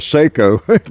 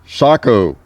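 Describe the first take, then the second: First: The first vowel sounds like 'ay'. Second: The first vowel sounds like 'ah'. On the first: "mispronounced as Seiko by most Americans" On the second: "looks like a Sako"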